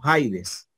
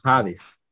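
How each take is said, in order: First: The first vowel is said as 'ai'. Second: The first vowel is said as plain 'a'. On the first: The written subscript iota is sounded. The speaker calls it wrong. "nosotros no decimos Jaides" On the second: The subscript iota is silent. The speaker calls it right. "decimos Jades"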